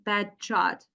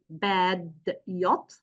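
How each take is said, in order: First: The d and y merge into a j sound. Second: The d and y are said as separate sounds.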